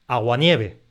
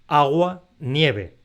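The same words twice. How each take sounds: First: Only "nieve" carries stress; "agua" is unstressed. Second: Both "agua" and "nieve" carry their own stress. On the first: It names the single weather phenomenon as one word. The speaker calls it right. "Esta palabra la pronunciamos aguanieve" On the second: It is heard as two separate words. The speaker calls it wrong. "y no agua-nieve"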